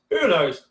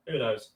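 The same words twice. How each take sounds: First: Said in the usual way. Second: Who knows muttered low and soft; soft shrugging aside "who knows?"; quiet mutter. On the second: Real, not acted. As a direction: say "who knows?" under your breath, trailing off.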